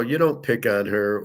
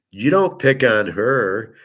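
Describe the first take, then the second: First: Said in the usual way. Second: Slowed down, each word leaned on and louder; firm slow insistence; slow emphatic. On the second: Real, not acted. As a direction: drive the point home slowly. Lecturing about picking on her.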